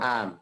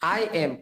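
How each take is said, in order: First: It is said quickly as one reduced syllable. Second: It is said as two full separate words. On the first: The speaker calls it right. "তাড়াতাড়ি তাড়াহুড়া করে বললে আমের মতো হয়ে যায়" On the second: The speaker calls it wrong. "আই এম পুরাটা বলার দরকার না"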